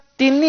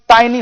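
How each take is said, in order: First: The first vowel is a short 'ih' sound. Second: The first vowel is a long 'eye' sound. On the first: The speaker calls it wrong. "ऐसे नहीं होगा" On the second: The speaker calls it right. "टाइनी होगा"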